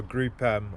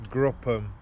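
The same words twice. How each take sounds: First: Group M with a separate "EM"; spelt-letter pronunciation. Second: Group M run together as "GRUP-um"; run-together pronunciation. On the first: Correcting the brand name for viewers, "Group M" as "groop EM". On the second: Naming the air filter brand, unsure pronunciation, "Group M" as "GRUP-um". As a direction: say "Group M" as one word, "GRUP-um". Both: Shown as a demonstration. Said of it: "however the fucking hell you say it".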